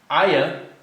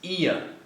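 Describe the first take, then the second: First: It begins with an 'ah' sound. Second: It begins with an 'ee' sound. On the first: The speaker calls it wrong. "It's not aya" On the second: The speaker calls it right. "the I makes more of an E sound"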